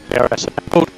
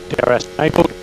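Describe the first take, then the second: No difference in how they are said.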